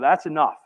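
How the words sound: It sounds firm, like drawing a boundary. The speaker refuses to allow any more. "from this place of sort of like drawing a boundary"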